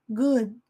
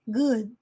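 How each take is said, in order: Both takes have the same delivery.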